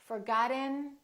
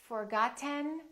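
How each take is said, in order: No difference in how they are said.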